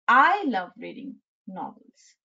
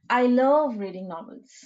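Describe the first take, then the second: First: The stress falls on the word I. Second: The stress falls on the word love. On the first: Whatever others feel, the speaker personally loves novels. "I'm stressing upon the letter I" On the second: The speaker feels strong emotion about reading novels. "So you're stressing upon the word love"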